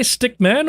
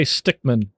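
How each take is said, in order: First: "stick man" as two words, MAN given its full vowel and high pitch; two separate words. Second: "stickman" run together, stress on STICK, MAN reduced and falling; one compound word. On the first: Asking viewers how they say it, "stick man" as two full words. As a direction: say "stick man" with a clear, lifted MAN. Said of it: "Would you say stick man". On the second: Offering viewers the other option, "stickman" as one compound word. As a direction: say "stickman" as one word with a light, low ending. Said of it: "or would you, like, say stickman".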